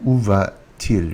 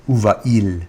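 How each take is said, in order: First: Où va-t-il with a T sounded between va and il; linking T. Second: Où va-il with no T, "oo va-eel"; vowels clashing without T. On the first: Teacher showing the correct inversion, où va-t-il with linking T. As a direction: link va to il with a T, "oo va-teel". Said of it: "with a T". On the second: Teacher showing what wouldn't flow, où va-il without the T. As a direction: let va run straight into il, no linking T. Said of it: "it wouldn't flow well". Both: Shown as a demonstration.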